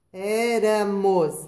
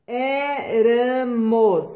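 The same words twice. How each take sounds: First: Éramos slowly, light single tap on the r; soft R again. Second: Éramos said very slowly with a light tapped r; soft tapped R. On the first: Teacher repeating the word for the class, slow and clear. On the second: Teacher showing pupils the soft R, very slow and clear. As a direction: stretch out Éramos, tap the r gently. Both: Shown as a demonstration. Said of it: "entre vogais".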